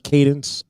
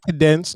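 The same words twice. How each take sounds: First: Said in the usual way. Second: "cadence" mimicked as kuh-DENCE; mispronounced cadence. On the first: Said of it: "Did you just say". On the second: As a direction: stress the end of "cadence", echoing the slip. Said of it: "not cadence".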